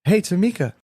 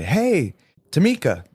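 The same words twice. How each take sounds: First: High, bright casual hello by name; friendly hey across the counter; cheery greeting. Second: Bright, high, casual hello by name; friendly hey across the counter; cheery greeting. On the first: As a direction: toss out her name brightly. Re-quoting his own greeting. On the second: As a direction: call her name out warmly and brightly. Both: Retold or imitated.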